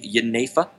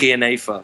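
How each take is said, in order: First: The word is given its Dutch pronunciation. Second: The word starts with a throaty G sound. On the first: "the pronunciation in Dutch would be Jenever" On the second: "like you use the back of your throat"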